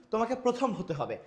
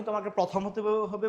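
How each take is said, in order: First: "প্রথম" with a rounded o after pr; teacher's model "প্রথম", closed first vowel; correct closed o. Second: "প্রথম" with an open aw after pr; mispronounced "প্রথম", open first vowel; wrong open vowel. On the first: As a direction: say "প্রথম" as pro-thom. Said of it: "আমরা কি বলি?". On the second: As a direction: say "প্রথম" as praw-thom, questioning it. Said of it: "না।". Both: Shown as a demonstration.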